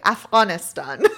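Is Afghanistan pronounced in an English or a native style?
native. It is said with a native Afghan-style pronunciation. The speaker calls it right. "I'm going to say it the proper way"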